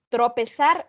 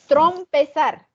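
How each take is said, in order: First: The first syllable has no 'm' sound. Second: The first syllable contains an added 'm' sound. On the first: The speaker calls it right. "Y lo correcto" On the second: The speaker calls it wrong.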